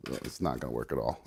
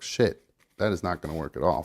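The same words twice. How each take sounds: First: Much softer, lower muttered repeat; muttering. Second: Said in the usual way. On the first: Real, not acted. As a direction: mutter it under your breath. Repeats failure to himself.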